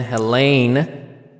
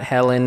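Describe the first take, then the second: First: The name ends with a long 'leen' sound. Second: The name ends with a short 'len' sound. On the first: The speaker calls it right. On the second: The speaker calls it wrong. "not Helen"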